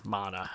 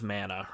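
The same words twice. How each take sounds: First: Mana with a broad "ah" in the first syllable; alternative pronunciation. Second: Mana with the first vowel as in "man"; alternative pronunciation. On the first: Offering viewers another way to say the game title, Mana as MAH-nuh. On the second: Offering viewers one way to say the game title, Mana as "manna". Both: Shown as a demonstration. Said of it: "however you wanna say it".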